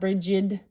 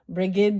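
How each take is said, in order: First: The G is soft, like a J. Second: The G is hard, like in go. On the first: The speaker calls it wrong. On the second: The speaker calls it right. "The G is hard"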